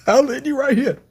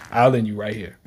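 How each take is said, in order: First: High, excited repeat of the line; hyped repeat. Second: Said in the usual way. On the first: Retold or imitated. Repeating Ichigo's threat, high hyped delivery. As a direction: throw the line out again all fired up.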